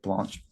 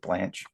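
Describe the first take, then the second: First: It is said with a French pronunciation. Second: It is said with an American English pronunciation. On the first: This is how it is said in Belgium. "but Blanche" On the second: This is how locals here would say it. "We would pronounce it Blanche"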